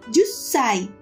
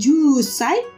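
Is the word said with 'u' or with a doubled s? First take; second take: double s; u. First: The u merges into a held s. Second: The u is said fully before sai. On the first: The speaker calls it right. "tetapi menjadi jusai" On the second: The speaker calls it wrong. "bukan jusai"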